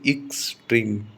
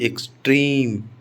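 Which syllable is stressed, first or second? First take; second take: first; second. First: The stress is on the first syllable. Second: The stress is on the second syllable. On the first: The speaker calls it wrong. "इक्स पर stress आना चाहिए" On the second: The speaker calls it right. "इन शब्दों में stress second syllable पर आता है"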